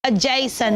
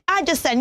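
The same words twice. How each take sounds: First: Adjacent as "uh-JAY-sen"; correct pronunciation. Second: Adjacent as "AD-juh-send"; wrong pronunciation. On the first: Teacher showing children what to say, careful adjacent. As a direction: stress a long JAY in adjacent. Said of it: "You should say adjacent". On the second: Teacher showing children what not to say, mispronounced adjacent. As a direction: stress the first syllable of adjacent, short "juh". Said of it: "So you don't say adjacent". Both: Shown as a demonstration.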